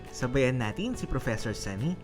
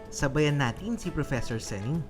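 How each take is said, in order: Both takes have the same delivery.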